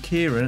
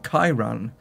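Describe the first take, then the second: First: The first syllable sounds like 'keer'. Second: The first syllable sounds like 'kai'. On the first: The speaker calls it wrong. "I said it wrong, as I'm saying Kieran" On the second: The speaker calls it right. "it's actually ... or Kyran. Is it Kai?"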